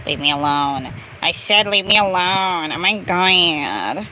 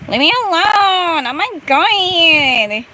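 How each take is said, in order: First: Low, restrained exasperation; low-pitched grumble of annoyance; fed up. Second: Put-on exasperated Latina accent, stretched vowels; spicy Latina accent. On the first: Real, not acted. Fed up, first restrained take. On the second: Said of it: "you're making the spicy latte accent come out".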